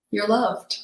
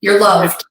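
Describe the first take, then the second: First: "You're loved" repeated much softer; soft loving echo. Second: Firm, loving "You're loved"; loving reassurance. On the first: Inner voice repeating comfort to Julie, softly fading. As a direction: let "You're loved" fade to a tender hush. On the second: Inner voice comforting Julie on the Camino, loving. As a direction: say "You're loved" like a gentle promise. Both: Retold or imitated. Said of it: "in a very loving way".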